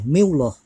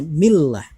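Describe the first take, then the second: First: The lam in Allah is pronounced thick. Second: The lam in Allah is pronounced thin. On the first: The speaker calls it wrong. "nggak boleh" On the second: The speaker calls it right. "wajib dibaca tarkik atau tipis, bunyinya"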